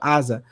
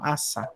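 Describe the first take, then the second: First: The middle consonant is a voiced Z sound. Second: The middle consonant is a voiceless S sound. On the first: The speaker calls it wrong. "A gente fala asa" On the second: The speaker calls it right. "Em hebraico é assa mesmo"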